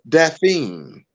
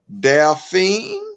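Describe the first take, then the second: First: The name is said in a polished announcer voice. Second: The name is said with a country twang. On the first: The setting is professional. "he got his voiceover voice on" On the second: The setting is casual. "You said it a little country"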